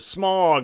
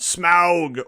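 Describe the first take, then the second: First: The name is said like the word smog. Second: The name is said the standard way. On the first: The speaker calls it wrong. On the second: The speaker calls it right.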